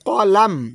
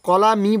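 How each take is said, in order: First: The word ends on a stopped consonant. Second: The word ends with a final vowel sound. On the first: The speaker calls it right. "দুই নম্বর আয়াতটা কী হবে" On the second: The speaker calls it wrong. "কলামি বলা যাবে না"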